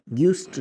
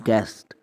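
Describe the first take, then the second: First: गिस्ट with a short i, gist; wrong pronunciation. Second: गेस्ट said guest, low; right pronunciation. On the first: Teacher showing learners the mistaken version, gist. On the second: Teacher giving learners the correct version, guest. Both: Shown as a demonstration. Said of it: "गिस्ट नहीं पढ़ते".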